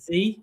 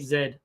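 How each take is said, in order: First: The letter is said as 'zee'. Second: The letter is said as 'zed'. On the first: The speaker calls it wrong. "If I hear someone say Z" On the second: The speaker calls it right. "I will reflexively say Z"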